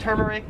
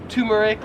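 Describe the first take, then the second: First: "turmeric" starting "TER-"; first syllable of "turmeric" as in "term"; American pronunciation. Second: "turmeric" starting "TOO-"; Australian pronunciation. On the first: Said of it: "I would pronounce this". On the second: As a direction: begin "turmeric" like "tumor". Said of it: "like you have a tumor". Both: Shown as a demonstration.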